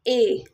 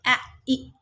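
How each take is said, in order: First: The two letters are read as one long vowel. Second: The two letters are read as two separate sounds. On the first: The speaker calls it right. "सो ए आई का sound is ए" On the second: The speaker calls it wrong. "अगर आपने अपने बच्चों को नहीं सिखाया तो बच्चे ऐसे ही पढ़ेंगे"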